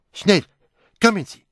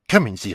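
First: High, loud alarmed shout; urgent shout. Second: A firm call, louder. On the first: Someone shouting for help after a crash, high and loud. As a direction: yell for help at once. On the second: Poirot calling Sugden to come along, firm and loud. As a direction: call the inspector to follow. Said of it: "rief er Sugden zu". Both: Acted.

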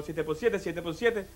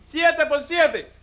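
First: Low, soft working-out; great-grandfather pondering. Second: High, very slow quiz question; executioner quizzing. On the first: Condemned ancestor puzzles over the second sum, low and hushed. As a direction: murmur the sum to yourself. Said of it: "dice mi tatarabuelo". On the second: Executioner sets the condemned man another sum, slow and high. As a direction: spell out the sum for him. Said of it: "Dice el verdugo". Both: Acted.

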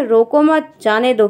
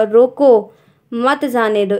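First: रोको मत together, pause, then जाने दो; comma after मत. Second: रोको alone, long pause, then मत जाने दो; comma after रोको. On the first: Teacher voices the second sentence, pausing between मत and जाने दो. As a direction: hold the break until after मत. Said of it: "दूसरे वाक्य में". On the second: Teacher reads by the punctuation, रोको then a clear pause. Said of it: "उसके हिसाब से पढ़ना होगा". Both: Shown as a demonstration.

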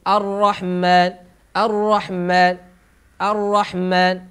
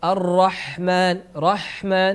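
First: "الرحمن" with ح cut short and م doubled; slow "الرحمن", leaning on a held double م; doubled م error. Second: "الرحمن" with a long, flowing ح before a single م; slow "الرحمن", ح given its full time; lingering ح. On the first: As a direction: rush off the ح in "الرحمن" into a heavy mm. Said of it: "فيحدث تشديد الميم لأنه نقص من". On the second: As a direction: stay on the breath of ح in "الرحمن". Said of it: "مكثنا في الحاء أكثر". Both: Shown as a demonstration.

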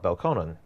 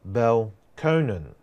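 First: Belconnen said quickly, BEL-con-nen; correct pronunciation. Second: Belconnen said slow, BEL-coh-nen; wrong pronunciation. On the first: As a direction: Belconnen with a short "con" middle. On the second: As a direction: Belconnen drawn out, middle syllable "coh". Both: Shown as a demonstration. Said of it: "not Belconnen".

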